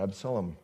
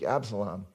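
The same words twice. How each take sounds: First: "Absalom" squeezed to two syllables, ABS-lum; wife's Absalom. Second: "Absalom" in three full syllables, AB-sa-lom; his own Absalom. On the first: Preacher gives his wife's version of "Absalom", clipped to ABS-lum. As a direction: clip "Absalom" down to ABS-lum, the middle vowel dropped. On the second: Preacher says the son's name "Absalom" his own way, in three clear syllables. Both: Shown as a demonstration. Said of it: "as my wife pronounces it".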